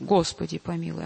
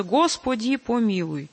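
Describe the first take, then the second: First: "Господи, помилуй" led by "Го", the rest reduced and falling away; first-syllable stress. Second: "Господи, помилуй" with every o full and equally stressed; all equal force. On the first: Teacher shows choir the logical accent, first-syllable stress. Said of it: "ударение на первый слог". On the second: Teacher shows choir the faulty reading, equal force throughout. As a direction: give each syllable of "Господи, помилуй" the same weight, unreduced "о". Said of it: "с одинаковой силой". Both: Shown as a demonstration.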